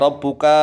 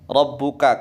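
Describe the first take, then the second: First: The vowel after the k is drawn out long. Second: The vowel after the k is short. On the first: The speaker calls it wrong. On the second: The speaker calls it right. "kafnya juga pendek"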